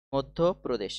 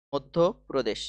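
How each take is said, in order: Both takes have the same delivery.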